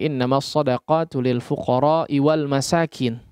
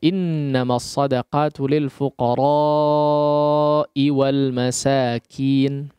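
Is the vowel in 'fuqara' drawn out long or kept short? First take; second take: short; long. First: The vowel in fuqara is kept short. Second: The vowel in fuqara is drawn out long. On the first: The speaker calls it wrong. "ia baca dengan pendek" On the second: The speaker calls it right. "Fuqara yaitu dengan memanjangkannya"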